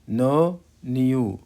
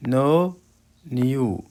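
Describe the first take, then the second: No difference in how they are said.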